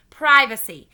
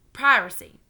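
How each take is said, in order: First: "Privacy" loud and firm, clear v; correct privacy. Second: Put-on "Piracy" with r for v, child's slip; mispronounced privacy. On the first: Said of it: "invasion of your privacy". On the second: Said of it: "not piracy". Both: A narrator's reading.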